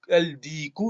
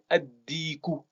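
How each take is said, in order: First: The article is said with a clear l sound. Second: The l is dropped and the d is doubled. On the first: The speaker calls it wrong. "on va pas dire al-di- al-diku" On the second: The speaker calls it right. "mais ad-diku"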